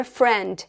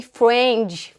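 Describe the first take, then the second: First: "friend" with a clear English r; "friend" said as in standard English; correct English pronunciation. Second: "friend" with a weak, swallowed English r; demonstrating a faulty Brazilian "friend"; Brazilian mispronunciation. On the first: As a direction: model the proper English word "friend". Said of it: "por exemplo, na palavra friend". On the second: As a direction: say "friend" as a Brazilian learner would. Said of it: "A gente fala meio que friend". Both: Shown as a demonstration.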